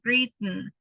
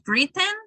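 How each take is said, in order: First: The T in the middle is a glottal stop. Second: The T in the middle is fully released. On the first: The speaker calls it right. "It's just the n sound" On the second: The speaker calls it wrong. "it's not"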